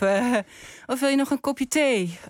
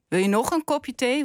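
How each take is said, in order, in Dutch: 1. De klemtoon valt op het woord thee. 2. De klemtoon valt op het woord nog. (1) "Je drinkt altijd koffie" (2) "Want je hebt er al 3 gehad"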